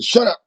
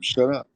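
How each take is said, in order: First: It is said forcefully and aggressively. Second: It is said low and mild, without meaning.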